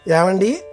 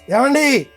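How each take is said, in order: First: The call sounds sweet and pleasant. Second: The call sounds sharp and startling.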